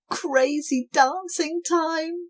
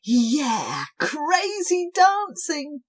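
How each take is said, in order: First: High, slow and gleeful; excited shout. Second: Higher, slow and gleeful; excited cheer. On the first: Cobwobblies calling everyone to dance. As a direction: announce the party. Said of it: "shouted the cobwebs". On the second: Cobwobblies cheering as the music starts. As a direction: whoop it up. Joining the dance. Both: Acted.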